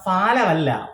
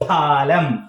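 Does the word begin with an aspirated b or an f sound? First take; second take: f; aspirated b. First: The word begins with an f sound. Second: The word begins with an aspirated b sound. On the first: The speaker calls it wrong. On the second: The speaker calls it right.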